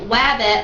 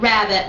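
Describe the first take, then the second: First: The word begins with a W sound. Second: The word begins with an R sound. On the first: The speaker calls it wrong. "with a W" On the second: The speaker calls it right. "with an R"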